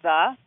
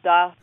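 First: The word begins with a soft th sound. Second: The word begins with a hard d sound. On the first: "instead of the" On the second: "He very, very clearly says duh"

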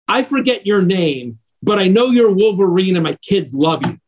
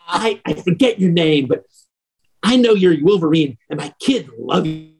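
First: The words are spoken clearly. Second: The words are spoken with a drunken slur.

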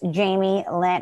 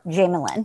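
First: The two names are said as separate words. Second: The two names run together as one word. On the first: "someone in Connecticut names their kid Jamie Lynn" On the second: "If you're from the South, it's one word"

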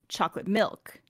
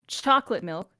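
First: The stress falls on the word 'milk'. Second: The stress falls on the word 'chocolate'. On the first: "Number two. Milk" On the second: "Do you put the emphasis chocolate milk"

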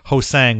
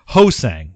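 First: The stress is on the second syllable. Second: The stress is on the first syllable. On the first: The speaker calls it wrong. "not Hosang, which we had been calling him for a while" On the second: The speaker calls it right. "with the emphasis on the first part of his last name"

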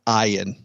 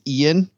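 First: The name is said an unusual, unexpected way. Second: The name is said the ordinary, expected way. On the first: This is how the character actually says it. "but he pronounces it Ian" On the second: This is how the spelling suggests it sounds. "his name looks like it's Ian"

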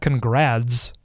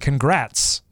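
First: The middle consonant sounds like a D. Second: The middle consonant sounds like a T. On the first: The speaker calls it wrong. "I think you're saying it with a D" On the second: The speaker calls it right. "Isn't it congrats, like with a T?"

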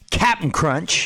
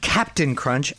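First: The first word is shortened to two quick syllables. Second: The first word is said fully and carefully. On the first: This is the casual, correct name. The speaker calls it right. "it's Captain Crunch" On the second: This is an overly formal way of saying the name. The speaker calls it wrong. "not Captain Crunch, as Nichols would call it. Formal"

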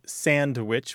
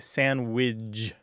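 First: It is said the standard way, ending in witch. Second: It is said ending in widge instead of witch. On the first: "which is standard" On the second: "widge at the end instead of witch at the end"

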